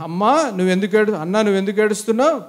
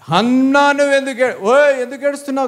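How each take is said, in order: First: Kindly husband's question at normal volume; nicely asked. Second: High, raised-voice husband's scolding; harsh mock scolding. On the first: Acted. Husband asking Hannah why she cries, nicely. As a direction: ask it nicely, without scolding. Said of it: "అక్కడ బాగా అన్నాడు". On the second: Husband demanding why Hannah is crying, harsh mock scolding. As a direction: play an exasperated husband, pitched up high. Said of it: "కాదు, అక్కడ బాగా అన్నాడు".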